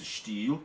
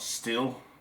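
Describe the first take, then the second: First: The vowel is long, like in 'steel'. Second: The vowel is short, like in 'still'. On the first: The speaker calls it right. "That's the proper pronunciation" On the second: The speaker calls it wrong. "It's not still"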